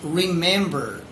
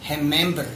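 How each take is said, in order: First: The R is a rhotic American R. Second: The R is a Brazilian Portuguese R. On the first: The speaker calls it right. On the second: The speaker calls it wrong.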